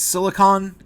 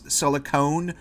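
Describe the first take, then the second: First: The last syllable sounds like 'con'. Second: The last syllable sounds like 'cone'. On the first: The speaker calls it right. "but it's silicon" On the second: The speaker calls it wrong. "Half the time I say it as silicone"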